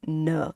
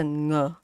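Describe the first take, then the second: First: "n" as an ordinary English N; plain N sound. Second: "ng" from the back of the mouth; NG sound. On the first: Teacher showing the wrong sound, plain "n". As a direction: say "n" with tongue tip, not ng. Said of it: "It's not a n". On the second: Teacher showing the right sound, back-of-mouth "ng". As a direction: start "ng" as in singer, no N. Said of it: "it's a ng". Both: Shown as a demonstration.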